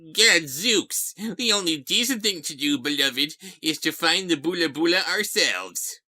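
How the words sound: It is read in a cartoonish character voice. The speaker calls it wrong. "Must you read him in that voice? I know that's what he sounded like in the cartoon"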